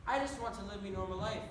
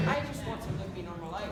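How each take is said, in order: First: "me normal life" in a broad Irish brogue, with "me" for "my"; thicker Irish accent. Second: A light Irish lilt, wistful; Irish accent. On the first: Broad Irish brogue, telling the audience his dream. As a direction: lean into the Irish accent, saying "me" for "my". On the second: Irish accent, sighing to the audience. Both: Acted. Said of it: "speaking in an accent".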